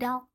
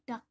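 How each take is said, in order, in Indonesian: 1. Bunyi l diucapkan sebelum k. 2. Hanya bunyi k yang mengakhiri kata. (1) "Bukan dak" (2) "tapi dak saja"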